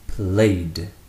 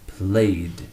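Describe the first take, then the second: First: It is said with one syllable. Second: It is said with one syllable.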